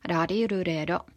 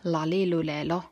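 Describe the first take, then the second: First: The consonant is a single quick tapped r. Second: The consonant is pronounced like an l. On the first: "Japanissa on yksitäryisiä" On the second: "voivat siis sanoa nämä ihan L-nä"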